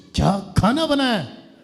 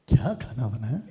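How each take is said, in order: First: It sounds like an angry scolding. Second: It sounds like a plain question.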